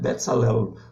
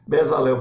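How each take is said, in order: First: The middle consonant is a ts sound. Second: The middle consonant is a plain z sound. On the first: This is the original Hebrew form of the name. "é Betzalel" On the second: This is the local form of the name. "da nossa pronúncia"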